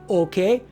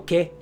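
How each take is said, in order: First: The word is said in full, two syllables. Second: The word is clipped short to one syllable. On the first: "instead of saying okay" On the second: "we just go ke, short"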